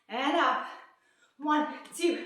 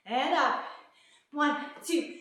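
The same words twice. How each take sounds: The two takes are said the same way.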